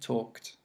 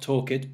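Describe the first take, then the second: First: The ending is a short t sound. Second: The ending is said as an extra syllable. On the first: The speaker calls it right. "we don't pronounce this E, so we say kt" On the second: The speaker calls it wrong. "Instead of not talked"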